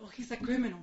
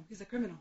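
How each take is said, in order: First: Offhand answer. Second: Softer, flatter repeat to end the questions; dry repeat. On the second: To her granddaughter at Costco, dry and softer. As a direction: drop it lightly, done with questions. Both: Retold or imitated. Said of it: "she was asking too many questions".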